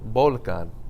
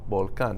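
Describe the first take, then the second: First: The stress is on the first syllable. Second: The stress is on the last syllable. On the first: The speaker calls it wrong. "If they didn't have an accent mark there, how would you think it was pronounced? ... That's not how you say it" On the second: The speaker calls it right. "You say volcan"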